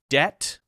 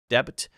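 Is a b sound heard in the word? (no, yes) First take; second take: no; yes. First: The b is silent; it sounds like det. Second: The b is pronounced, adding an extra syllable. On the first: The speaker calls it right. "silent letter is at the end of the word" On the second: The speaker calls it wrong. "which sounds too much like debit"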